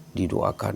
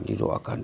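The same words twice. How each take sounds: First: Low, soft "Didoakan" as a quiet refrain; softly repeated. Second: "didoakan" breathed as a whisper; whispered refrain. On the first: Preacher murmurs "Didoakan" as the prayer fades, low and soft. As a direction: drop the voice on "Didoakan". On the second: Preacher lets the repeated "didoakan" die to a whisper. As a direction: let "didoakan" fade into a whisper. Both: Shown as a demonstration. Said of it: "Buya juga mendoakan ayah".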